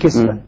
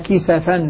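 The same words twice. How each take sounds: First: The s carries no vowel after it. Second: The s carries a short a vowel. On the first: "بسكون السين" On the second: "بفتح السين"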